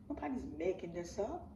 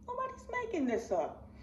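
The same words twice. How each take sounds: First: Said in the usual way. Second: High, emphatic repeat; pitched-up insistence; insistent. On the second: Real, not acted. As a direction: push it up hard. Repeats line, much higher.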